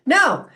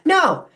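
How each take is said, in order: First: It is said sharply, like a bark. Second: It is said sharply, like a bark.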